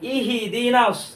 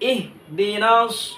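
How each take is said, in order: First: An extra i vowel follows the h sound. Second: The h is followed directly by the d. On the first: The speaker calls it wrong. "হার নিচে আমরা জের একটা যুক্ত করে ফেলি" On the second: The speaker calls it right. "ইহি দিনা না পড়ে ইহ দিনাস"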